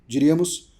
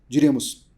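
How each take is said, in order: No difference in how they are said.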